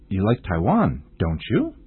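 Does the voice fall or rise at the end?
rise. The pitch rises at the end. The speaker does not know if the listener likes Taiwan. "老师是用上扬的语调 don't you?"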